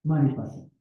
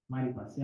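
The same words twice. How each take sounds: First: Said in the usual way. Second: મારી પાસે repeated much softer; soft echo. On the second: Shown as a demonstration. (ધીમા અવાજે મારી પાસે) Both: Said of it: "તમને આનંદ જોઈએ ને".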